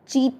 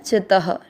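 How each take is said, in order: First: The vowel is drawn out long. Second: The vowel is kept short. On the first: The speaker calls it wrong. "चीत नहीं करना है" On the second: The speaker calls it right.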